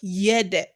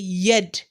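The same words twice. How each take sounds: First: The final consonant ends with a slight echoing bounce. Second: The final consonant stops flat without any bounce. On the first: The speaker calls it right. "We made the qalqala on it" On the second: The speaker calls it wrong. "we didn't say yed"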